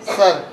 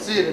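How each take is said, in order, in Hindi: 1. स्वर 'er' ध्वनि है, जैसे 'sur' में। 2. स्वर छोटी 'ih' ध्वनि है, जैसे 'sih-r' में। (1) "इसको क्या पढ़ते हैं सर" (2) "अगर ई की मात्रा लगती तो ये क्या पढ़ा जाता सिर"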